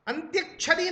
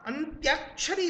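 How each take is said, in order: First: The vowel after 'anty' is short. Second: The vowel after 'anty' is long. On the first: The speaker calls it wrong. "नहीं होता" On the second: The speaker calls it right. "होता है"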